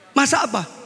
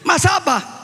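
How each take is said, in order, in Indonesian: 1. Pertanyaan itu diucapkan dengan suara biasa, pelan. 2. Pertanyaan itu diucapkan agak keras.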